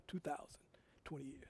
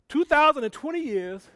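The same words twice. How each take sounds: First: Quiet aside. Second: Emphatic repeat. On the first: Quiet first saying of date. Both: Shown as a demonstration.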